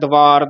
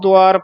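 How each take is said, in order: First: The first syllable has no vowel, using v. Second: The first syllable has a u vowel. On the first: The speaker calls it wrong. "ਦੁਆਰ ਨੂੰ ਵਾਵੇ ਨਾਲ ਬੋਲ ਜਾਂਦੇ ਹਾਂ" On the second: The speaker calls it right. "ਇਹ ਧਿਆਨ ਨਾਲ ਬੋਲਣਾ ਹੈ"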